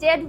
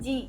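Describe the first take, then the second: First: The letter is said as zed. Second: The letter is said as zee. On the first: The speaker calls it wrong. "আমরা ছোটবেলা থেকে জেড উচ্চারণ করি" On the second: The speaker calls it right. "আসলে তো এটার উচ্চারণ জি"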